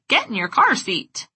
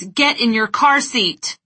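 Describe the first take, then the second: First: It is said in a silly, goofy voice. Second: It is said loudly in an angry tone. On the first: "With a wacky facial expression and a goofy voice" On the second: "With eyes wide, big gestures, and a loud, angry tone of voice"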